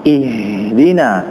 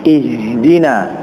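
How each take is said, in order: The two takes are said the same way.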